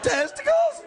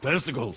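First: It is said in a higher voice. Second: It is said in a low, deep voice.

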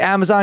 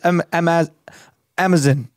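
First: The word is said with an American pronunciation. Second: The word is said with a British pronunciation. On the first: This is how the speaker's own country says it. "we say Amazon" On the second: This is how someone from another country says it. "He says Amazon"

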